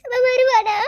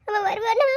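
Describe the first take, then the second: First: Louder sobbing cry falling on வருவானா; weeping bride cries out for her husband. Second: A tearful plea with a rise on வருவானா; weeping bride asks if her husband will come; tearful question. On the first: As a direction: break down fully on வருவானா. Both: Acted. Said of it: "அழாத சஞ்சு".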